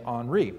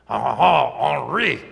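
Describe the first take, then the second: First: The name is said with an English-sounding pronunciation. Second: The name is said with an exaggerated French pronunciation. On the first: The speaker calls it wrong. "I didn't say that right" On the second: The speaker calls it right. "There we go"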